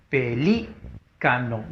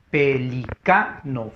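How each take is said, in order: First: Pelícano broken slowly into syllables, leaning on LÍ; slow pe-LÍ-ca-no, Pelícano stressed third from last. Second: Pelicano drawn out slowly by syllable, leaning on CA; slow pe-li-CA-no, Pelicano stressed on CA. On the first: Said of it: "Lleva tilde porque es esdrújula". (Pelícano silabeado despacio, con fuerza de voz en LÍ) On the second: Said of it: "fuerza de voz en la K". (Pelicano silabeado despacio, con fuerza de voz en CA) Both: Shown as a demonstration.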